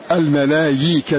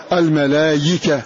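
No difference in how they are said.

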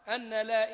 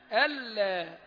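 First: The n sound is said clearly before la. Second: The n sound merges into the following l. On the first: The speaker calls it wrong. "ليست هكذا" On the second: The speaker calls it right. "أن ألا"

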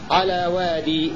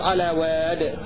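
First: The word ends with a long i vowel. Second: The word ends on a silent d consonant. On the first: "هكذا يقف الكسائي" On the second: "بسكون الدال بدون ياء"

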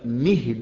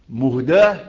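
First: The word ends with a long 'ee' vowel. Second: The word ends with a long 'a' vowel. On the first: It gives guidance to others. "ده اسم فاعل" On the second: It was given as a gift. "ده اسم مفعول"

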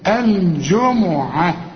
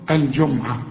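First: The m is followed by a u vowel. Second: The m has no vowel after it. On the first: The speaker calls it right. "لا الجمعة" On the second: The speaker calls it wrong. "في ناس كتير يقول لك ايه الجمعة"

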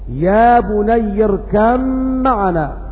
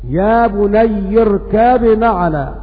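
First: The b is merged into the following m. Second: The b is pronounced clearly before the m. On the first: "يقرؤون بالإدغام قولا واحدا" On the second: "هؤلاء قرأوا بالإظهار قولا واحدا، فيقرؤون هكذا"

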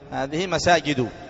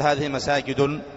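First: The final word ends without an added n sound. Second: The final word ends with an added n sound. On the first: The speaker calls it right. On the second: The speaker calls it wrong.

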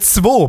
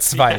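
First: The number is said in a regional dialect form. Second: The number is said in standard German form. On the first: This is a new, made-up way of saying it. "wie cool wäre es eigentlich, wenn wir alle zwei plötzlich sagen" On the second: This is the usual way of saying it. "statt zwei"

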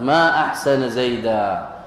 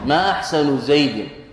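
First: The middle word ends in a short a vowel. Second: The middle word ends in a short u vowel. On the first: It expresses wonder at how fine the person is. "لأنك نصبت أحسن ونصبت زيدا" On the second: It asks what is fine about the person. "ما أحسن بالرفع"

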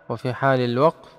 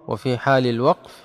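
No difference in how they are said.

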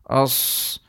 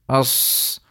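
The two takes are said the same way.

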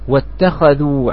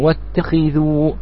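First: The kh sound is followed by an 'a' vowel. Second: The kh sound is followed by an 'i' vowel. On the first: It states that they took a place of prayer. "بفتح الخاء على صيغة، واتخذوا على صيغة الماضي" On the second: It commands them to take a place of prayer. "على صيغة الأمر"

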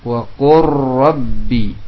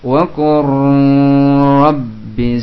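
First: The merged sound is short without nasal hum. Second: The merged sound is held long and nasal. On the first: The speaker calls it right. "tapi pendek. Wa qurrabbi, tanpa didengungkan" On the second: The speaker calls it wrong. "dipanjangkan, tidak"

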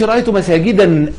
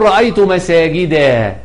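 First: The last word ends with an added n sound. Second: The last word ends in a plain short a. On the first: The speaker calls it wrong. "ما تقولش رأيت مساجدا أبدا" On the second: The speaker calls it right. "تقول"

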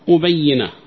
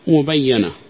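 First: The doubled y is followed by an i vowel. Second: The doubled y is followed by an a vowel. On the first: The wrongdoing is itself evident. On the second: Someone has made the wrongdoing evident.

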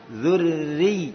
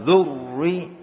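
First: The r sound is light and thin. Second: The r sound is heavy and full. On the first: The speaker calls it right. "Jadi tipis ra-nya" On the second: The speaker calls it wrong. "Bukan zurri enggak gitu"

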